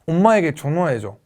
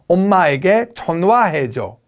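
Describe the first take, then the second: First: The syllables run together smoothly and relaxed. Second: Each syllable is pronounced separately and crisply. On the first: The speaker calls it right. "right now it's" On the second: The speaker calls it wrong. "I was saying it too distinctly"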